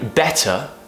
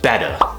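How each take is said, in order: First: The middle consonant is a clear T. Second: The middle consonant is a soft tap.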